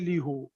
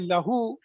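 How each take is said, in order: First: The first vowel is a close 'i' sound. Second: The first vowel is an open 'a' sound. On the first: The speaker calls it wrong. "it is awkward to say lihu" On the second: The speaker calls it right. "Arabs they found it is nice to say lahu"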